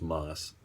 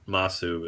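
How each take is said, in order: First: The final u sound is silent. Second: The final u sound is pronounced.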